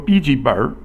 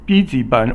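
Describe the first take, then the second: First: The word ends with an added r sound. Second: The word ends without an added r sound.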